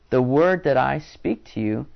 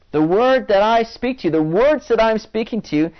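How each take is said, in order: First: Said in the usual way. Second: Raised pitch, pressing "The word that I speak to you"; "The word that I speak to you" said higher, insistently; emphatic repetition. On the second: Acted. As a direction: lift "The word that I speak to you" high and drive it home. Repeats Jesus' saying for emphasis.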